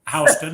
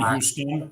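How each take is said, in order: First: It is pronounced the way the surname is. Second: It is pronounced the way the city is. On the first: It refers to the family name. "my last name's Houston" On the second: It refers to the city. "I grew up in Houston"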